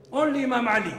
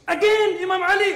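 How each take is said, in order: First: Louder, higher heartfelt declaration; a preacher overcome with feeling; emotional. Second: Very loud, very high emotional outburst; the preacher crying out the name in real emotion. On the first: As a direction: declare it with rising fervour. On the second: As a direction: cry it out at full force, overcome. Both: Real, not acted. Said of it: "Sorry, I get so emotional".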